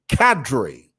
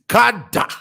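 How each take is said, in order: First: It is said in an American accent. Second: It is said in a Zambian accent. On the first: "an E sounding emphasis at the end" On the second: "the Zambian pronunciation is kada"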